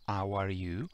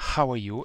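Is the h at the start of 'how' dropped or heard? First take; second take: dropped; heard. First: The h at the start is dropped. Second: The h at the start is clearly heard. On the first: The speaker calls it wrong. "e non" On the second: The speaker calls it right. "è importantissima anche qui la H iniziale"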